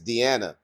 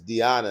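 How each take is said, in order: First: The first vowel is an 'ee' sound. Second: The first vowel is an 'eye' sound. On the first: The speaker calls it wrong. "It looks like it's" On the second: The speaker calls it right. "pronounce it with the I"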